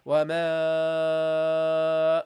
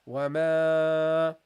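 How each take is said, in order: First: The long vowel is held far too long. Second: The long vowel is held moderately long. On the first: The speaker calls it wrong. "That's too long" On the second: The speaker calls it right. "that's how you pronounce it"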